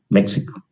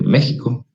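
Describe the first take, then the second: First: The x is pronounced as a 'ks' sound. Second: The x is pronounced as a 'j' sound. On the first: "porque la X se pronuncia como ex" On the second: "la X la pronuncia como J"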